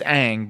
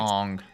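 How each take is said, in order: First: The vowel sounds like the one in 'cat'. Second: The vowel sounds like the one in 'song'. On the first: This is the intended name. The speaker calls it right. "It's Aang" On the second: This is how the film says the name. The speaker calls it wrong. "but they pronounce it"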